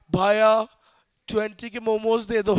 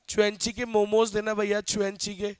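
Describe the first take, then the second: First: "ट्वेंटी" said plainly as twenty, "भैया" called out loud; simple correct version. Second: Mocking the friend's wife, saying "चुएंची" for twenty; "चुएंची" said as chu-en-chi, a mangled "twenty"; mock wrong English. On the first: Shown as a demonstration. How she should just order momos in Jaipur, plain "ट्वेंटी". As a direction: say "ट्वेंटी के momos" the simple local way. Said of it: "अब भैया बोल सकती है ना". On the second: Friend's showy wife orders momos, mangling "चुएंची". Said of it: "वो same वैसी बोलती है, इंग्लिश की फजीती करती है".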